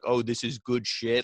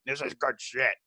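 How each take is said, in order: First: Said in the usual way. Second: Mock boss's catchphrase impression; hammed-up impersonation of an approving boss; Vince McMahon. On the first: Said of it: "I don't wanna say". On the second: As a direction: put on a wrestling boss's voice. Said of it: "I don't wanna be Vince McMahon".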